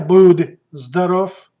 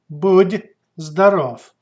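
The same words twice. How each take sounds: First: The final consonant of будь sounds hard. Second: The final consonant of будь sounds soft. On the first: The speaker calls it wrong. "Not a будь здоров" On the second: The speaker calls it right. "but будь здоров"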